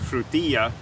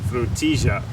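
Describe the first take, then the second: First: It is said in a Castilian Spanish accent. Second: It is said in a River Plate Spanish accent. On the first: "in Castilian Spanish they would pronounce this" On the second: "River Plate Spanish it's"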